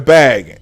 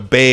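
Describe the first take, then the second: First: Bag is said in a plain, unmarked accent. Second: Bag is said with a Minnesota regional accent. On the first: "I'm gonna put it in a bag" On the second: "she would say"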